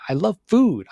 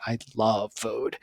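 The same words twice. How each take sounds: First: Higher, louder I love food; eager foodie announcement; bright declaration. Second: Softer, slow I love food; dreamy, tender love of food; soft savouring. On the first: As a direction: say food with relish. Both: Shown as a demonstration. Contrasting takes of the same line.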